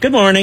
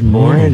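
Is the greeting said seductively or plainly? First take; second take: plainly; seductively. First: It is said in a plain, ordinary way. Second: It is said in a seductive, alluring way.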